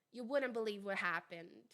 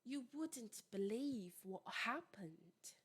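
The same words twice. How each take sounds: First: Low-pitched American take, WOULDN'T run into "wurren"; American pronunciation. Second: Slow, soft, whispery British accent; British WOULDN'T with crisp D and T, drawn out slowly; British pronunciation. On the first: Teacher contrasting with the British take, American pronunciation. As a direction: drop the T in WOULDN'T and link it to BELIEVE. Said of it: "o D, ele é quase imperceptível". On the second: Teacher demonstrating the example to students, British accent. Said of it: "a pronúncia mais britânica". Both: Shown as a demonstration.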